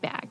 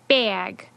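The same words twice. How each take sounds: First: The vowel is a single, low sound. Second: The vowel is raised and glides like a diphthong. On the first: This is how it was said before the shift. "with the tongue fairly low in the mouth" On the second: This is how it is said after the shift. "raised the tongue um, much higher in the mouth, and now it's it turned into a diphthong"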